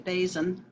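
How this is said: The name is pronounced the English way. "if you want to anglicize it"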